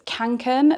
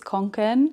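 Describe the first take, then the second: First: It is said with a British pronunciation. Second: It is said with a Swedish pronunciation. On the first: "That's how we pronounce it in the U K" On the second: "it's pronounced very differently in Sweden. I think it's"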